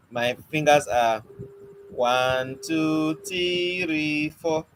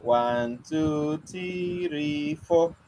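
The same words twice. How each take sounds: First: Slow trick count with "three" held; counting trick demo. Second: Sly slow count with a long "three"; counting trick again. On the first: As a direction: drag out "three" as if it were two counts. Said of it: "You see what I just did?". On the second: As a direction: hold "three" long and soft to hide a finger. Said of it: "So what did you notice?". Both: Shown as a demonstration.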